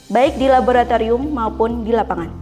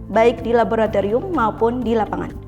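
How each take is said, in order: The two takes are said the same way.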